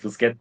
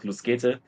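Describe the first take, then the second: First: The name is pronounced the anglicized way. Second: The name is pronounced the German way. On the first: The speaker calls it wrong. "not Lusget" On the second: The speaker calls it right. "It's like a German, uh, like German pronouncing"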